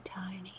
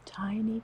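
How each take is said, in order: First: Tiny whispered, much softer and breathy. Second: Said in the usual way. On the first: Shown as a demonstration. Repeats word, second whispered.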